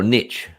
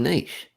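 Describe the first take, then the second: First: Niche rhyming with pitch; niche pronounced "nitch". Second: Niche rhyming with leash; niche pronounced "neesh". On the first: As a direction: say niche with a short i, ending in tch. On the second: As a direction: say niche with a long ee, ending in sh. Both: Shown as a demonstration. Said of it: "Do you say niche".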